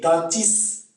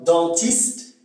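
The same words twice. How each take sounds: First: "dentiste" without the final t, dentiss; Québécois final cluster. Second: Said in the usual way. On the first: Shown as a demonstration. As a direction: drop the last t of "dentiste", slowly. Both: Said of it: "ça se prononce is".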